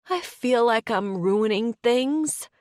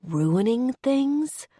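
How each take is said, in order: First: Slow, higher, tearful confession. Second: Slow, higher, puzzled "Ruining things?"; baffled echo. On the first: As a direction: confess it slowly, close to tears. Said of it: "she bursts into tears". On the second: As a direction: echo it back, not getting it. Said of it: "he echoes, baffled". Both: Acted.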